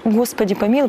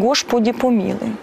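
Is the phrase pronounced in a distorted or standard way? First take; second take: standard; distorted. First: The phrase is said with standard pronunciation. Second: The phrase is said with distorted sounds. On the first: The speaker calls it right. "Вместо «Господи помилуй»" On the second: The speaker calls it wrong. "говорит «Господи помилуй»"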